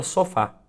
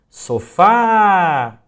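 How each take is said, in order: First: Said in the usual way. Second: "Sofá" loud and higher, FÁ held very long; sílaba tônica prolongada. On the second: Shown as a demonstration. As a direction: call out "Sofá", stretching the final fá. ("Sofá" chamado em voz alta, com o fá bem prolongado) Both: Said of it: "prolongasse a pronúncia da palavra".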